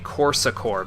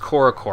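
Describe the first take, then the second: First: It is said with an S sound inside. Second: It is said without an S sound inside. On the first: The speaker calls it right. "in terms of the French pronunciation, you'd say Corsacor because the A makes the S soft" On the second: The speaker calls it wrong. "isn't pronounced Korokor"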